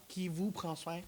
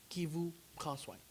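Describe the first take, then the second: No difference in how they are said.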